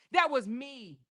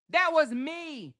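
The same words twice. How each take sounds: First: Said in the usual way. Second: "me" stretched high and slow, hammered home; slow and higher, leaning hard on "me"; imitated emphasis. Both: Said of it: "She put emphasis on that shit".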